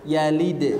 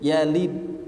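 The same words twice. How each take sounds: First: The sounds are joined directly without drawing out. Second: The sounds are drawn out rather than joined directly. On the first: The speaker calls it right. "Langsung yalid" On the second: The speaker calls it wrong. "Tidak dibaca yalid"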